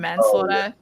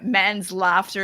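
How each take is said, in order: First: It is said as one ordinary word. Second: It is split into man's and laughter. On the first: It means the crime of killing someone. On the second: It is a joke meaning a man's laughing.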